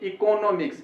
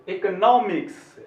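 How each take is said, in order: First: The 'nom' syllable gets no rise in voice. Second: The voice rises on the 'nom' syllable. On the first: The speaker calls it wrong. "ऐसे नहीं पढ़ना चाहिए" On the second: The speaker calls it right. "नौ पे हमको अ पे थोड़ा आवाज को ऊंचा कर देना है"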